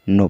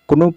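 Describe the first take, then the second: First: The word starts directly with the n sound. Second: A k sound is pronounced before the n. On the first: The speaker calls it right. "लेकिन इसमें जो के है ये silent है, नो पढ़ा जाएगा" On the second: The speaker calls it wrong. "इसको कुनो पढ़ना चाहिए मुझे, लेकिन इसमें क्या है कि के साइलेंट है"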